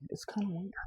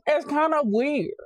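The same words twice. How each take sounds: First: Hushed, softer aside; whispering. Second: High, loud, slow repeat. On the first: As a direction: whisper it under breath. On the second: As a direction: belt it out slowly. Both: Shown as a demonstration. Whispered then shouted.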